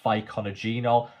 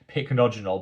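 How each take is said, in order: First: The word begins with an extra 'fy-co' sound. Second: The word begins with a short 'pick' sound. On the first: The speaker calls it wrong. "I actually used to refer to it as Phyconogenol" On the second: The speaker calls it right. "I'm now pronouncing it correctly"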